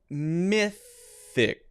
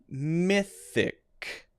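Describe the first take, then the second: First: The middle sound is an unvoiced 'th'. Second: The middle sound is an unvoiced 'th'.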